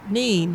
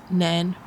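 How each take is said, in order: First: The name has a long vowel, like seen. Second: The name has a short vowel, like pen. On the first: This is how it is said around Peterborough. "around Peterborough, it's usually pronounced Neen" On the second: This is how it is said around Northampton. "In Northampton, it's pronounced Nen"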